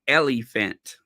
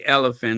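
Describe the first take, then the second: First: The word is said in a fancy voice. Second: The word is said in a plain voice. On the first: "I have to say it fancy" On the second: "I just don't say elephant"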